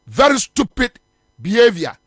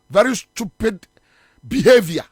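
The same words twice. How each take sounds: First: "Very stupid behavior" said with added emphasis; emphatic repeat. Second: Said in the usual way. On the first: Real, not acted. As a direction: hammer home "Very stupid", then "behavior" after a pause. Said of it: "I emphasize on the stupidity". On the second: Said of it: "And I emphasize on the stupidity".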